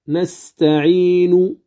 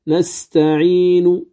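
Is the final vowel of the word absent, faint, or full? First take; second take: full; full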